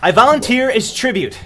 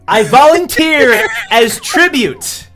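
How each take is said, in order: First: The phrase is said at a softer volume. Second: The phrase is said at a louder volume.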